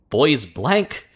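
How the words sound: The name is pronounced the English way. "the English pronunciation of that these days is like"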